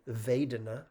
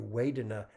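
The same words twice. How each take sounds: First: The word begins with a V sound. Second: The word begins with a W sound. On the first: "The second in Pali is with a V" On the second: "sometimes you'll hear it with a W ... That's just a Burmese accent"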